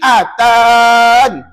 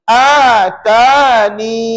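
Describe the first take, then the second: First: The word ends on the n sound. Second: The word ends with a long ee vowel. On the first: "Tadi atan" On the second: "Kali ini atani"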